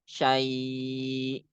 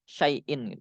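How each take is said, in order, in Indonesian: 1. Vokalnya panjang dan akhirannya dihilangkan. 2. Vokalnya pendek dan akhirannya tetap dibaca. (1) "Jadi panjang" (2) "itu dibaca pendek"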